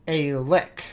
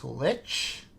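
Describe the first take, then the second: First: "lick" said like the word for a tongue's lick, short i and a hard k; lick pronunciation. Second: "lich?" said with a soft ch ending, like "itch", asked slowly; correct lich. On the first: Quoting the DM's mistake, "lick" said with a hard k. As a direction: read "a lick" as the DM did, with a plain short k. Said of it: "and now I'm quoting the D M". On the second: Correcting the DM, "lich?" with a soft ch. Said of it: "That's pronounced lich?". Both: Retold or imitated.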